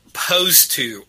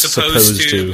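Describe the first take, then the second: First: The opening s sound is dropped. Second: The opening s sound is pronounced. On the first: The speaker calls it wrong. "You like cut the word off or you don't pronounce it" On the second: The speaker calls it right. "instead of saying"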